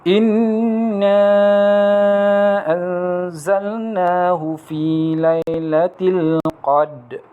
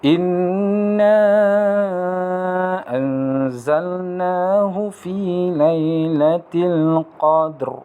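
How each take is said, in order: First: The final r sound of the last word is dropped. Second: The final r sound of the last word is clear. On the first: The speaker calls it wrong. "Bacaan yang salah adalah" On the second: The speaker calls it right. "Bunyinya mestilah jelas ha, mengenai huruf ra yang berada di belakang"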